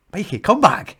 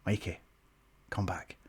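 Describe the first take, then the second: First: Louder, higher urgent call. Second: Urgent hushed aside, much softer and lower; hushed whisper. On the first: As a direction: call him back with rising urgency. Retelling a more urgent second try. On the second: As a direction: whisper it so the crowd can't hear. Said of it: "I'm trying to whisper". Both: Retold or imitated.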